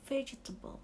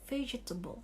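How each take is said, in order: Both takes have the same delivery.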